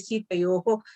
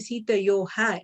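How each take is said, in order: First: The final h is followed by an o vowel. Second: The final h is followed by an a vowel. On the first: The speaker calls it right. "it should be Sita Yoho" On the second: The speaker calls it wrong. "You can't say Sita Yoha"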